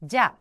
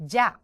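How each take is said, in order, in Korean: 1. 한 음절로 줄여서 발음해요, ja. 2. 한 음절로 줄여서 발음해요, ja.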